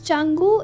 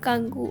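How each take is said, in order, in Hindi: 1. इस नाम की शुरुआत 'ch' ध्वनि से होती है। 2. इस नाम की शुरुआत 'k' ध्वनि से होती है। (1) "तो इट्स चंगू" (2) "इट्स नॉट कंगू"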